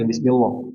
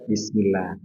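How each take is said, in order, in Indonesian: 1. Bunyi L-nya tebal dan berat. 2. Bunyi L-nya tipis dan ringan.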